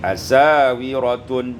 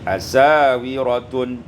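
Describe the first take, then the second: First: The s is followed by a long a vowel. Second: The same.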